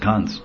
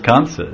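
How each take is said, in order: First: The name is short, ending on a consonant. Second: The name is two syllables, ending in a vowel. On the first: This is the everyday Hindi form of the name. The speaker calls it wrong. "people in Hindi, when you're in Hindi land, they say" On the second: This is the original Sanskrit form of the name. The speaker calls it right. "The actual Sanskrit word is Kamsa"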